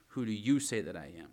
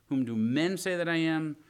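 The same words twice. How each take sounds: First: YOU picked out, the rest falling lower; stress on YOU. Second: MEN punched high and loud; stress on MEN. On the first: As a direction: lean on the word you, then let it drop. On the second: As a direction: hit the word men hard, louder and higher. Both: Shown as a demonstration. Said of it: "There's a difference there".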